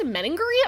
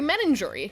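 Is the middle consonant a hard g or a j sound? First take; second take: hard g; j sound. First: The middle consonant is a hard g sound. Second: The middle consonant is a j sound. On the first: The speaker calls it wrong. "J, not G" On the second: The speaker calls it right. "it's jury"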